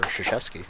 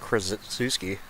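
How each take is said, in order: First: The K and R sounds are left out. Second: The K and R sounds are pronounced. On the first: The speaker calls it right. "Don't even acknowledge the K and the R" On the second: The speaker calls it wrong. "you don't say"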